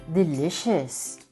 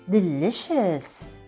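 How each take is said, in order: Both takes have the same delivery.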